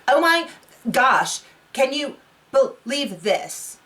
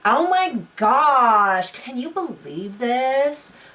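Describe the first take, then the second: First: It sounds flat and robotic. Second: It sounds like exasperated teenage talk.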